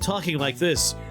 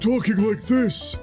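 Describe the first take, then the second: First: It is said in a normal speaking voice. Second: It is said in a heavy, put-on character voice.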